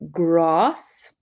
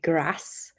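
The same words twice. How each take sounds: First: It is said in a southern English accent. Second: It is said in a northern English accent.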